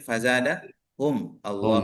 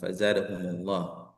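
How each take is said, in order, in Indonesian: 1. 'Hum' dan 'Allah' dibaca sebagai kata yang terpisah. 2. 'Hum' tersambung ke 'Allah' dengan vokal penghubung. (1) "kalau secara familiar kan kita bacanya fazadahum Allah"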